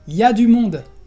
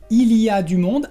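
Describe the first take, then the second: First: Il y a is reduced to ya. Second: Il y a is said in full. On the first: "vamos a decir" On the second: "en lugar de decir"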